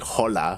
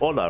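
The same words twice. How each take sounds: First: The first sound h is clearly heard. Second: The first sound h is silent. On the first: The speaker calls it wrong. "You don't say hola" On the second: The speaker calls it right. "It's like hola, right?"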